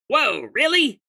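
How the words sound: It is said in a croaky old man voice. "real old man voice? Old man voice"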